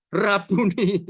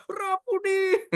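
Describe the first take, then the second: First: Said in the usual way. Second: High, long-drawn happy call; overjoyed cry. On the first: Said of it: "berkata kepadanya". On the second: Acted. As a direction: cry out slowly in acted joy. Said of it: "Saking senengnya". (seruan girang, tinggi dan panjang)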